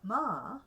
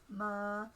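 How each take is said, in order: First: The pitch rises and then falls. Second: The pitch stays level in the middle. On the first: "rising and falling" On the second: "You can have a mid-tone"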